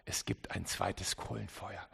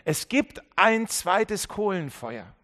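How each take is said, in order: First: Soft, low announcement of the sermon title; quiet title line. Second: Loud, slow refrain with gibt hammered; emphatic refrain. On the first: Preacher quietly naming his sermon, soft and low. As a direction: let the title drop almost to a murmur. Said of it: "deswegen heißt meine Predigt auch". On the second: Preacher repeating his sermon title as a loud, slow refrain. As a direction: drive home every word, slowly. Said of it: "meine Predigt auch". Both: Shown as a demonstration.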